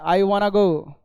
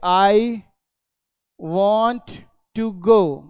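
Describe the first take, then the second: First: 'Want to' is blended into one word, 'wanna'. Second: Each word of 'want to' is said separately. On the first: "तो आजकल इसको ऐसे बोला जा रहा है" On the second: "आदमी जैसे आजकल बोल रहा है मॉडर्न इंग्लिश में कि"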